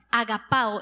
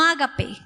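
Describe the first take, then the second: First: "agapao" stressed on PA, ending a-o; stress on second-last A. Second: "agape" with a final e, offered as the wrong form. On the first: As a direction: say agaPÁo, accent on the A before o. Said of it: "con tilde en la A". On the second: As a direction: say "agape", ending on e rather than ao. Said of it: "No agape, agapao". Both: Shown as a demonstration.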